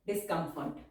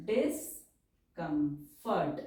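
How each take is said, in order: First: Said in the usual way. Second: Stretched syllable by syllable; slow dictation. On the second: Shown as a demonstration. Teacher dictating a word to students, slowly. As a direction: dictate it for the pen.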